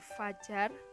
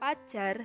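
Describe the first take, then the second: First: The word begins with an f sound. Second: The word begins with a p sound. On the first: The speaker calls it right. "seharusnya fajar" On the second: The speaker calls it wrong. "fonem F diucapkan menjadi P"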